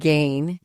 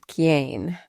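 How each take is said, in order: First: It starts with a G sound, final vowel dropped. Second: It starts with a K sound, final vowel kept. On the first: This is how the dialect spoken around New Jersey and New York says it. "it ended up sounding more like gain" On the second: This is the standard Italian way of saying it. "instead of Chiane"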